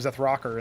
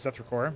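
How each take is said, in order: First: The word ends with a short 'ker' sound. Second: The word ends with a full 'core' sound. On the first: Another person says the name this way. "He does pronounce them Zethrocker" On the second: This is the usual way to say the name. "instead of Zethrocore"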